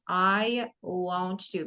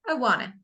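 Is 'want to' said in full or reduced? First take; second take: full; reduced. First: Want to is said in full, word by word. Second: Want to is blended into one short word. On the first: "let me say something about I want to" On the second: "in American English, we normally say wanna"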